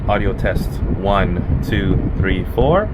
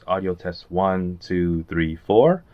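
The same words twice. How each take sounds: First: The voice is heard over fan noise. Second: The voice is heard without fan noise. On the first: "I have a fan on low that's blowing directly at all three cameras" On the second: "without an external mic and me speaking directly about a foot away from each camera"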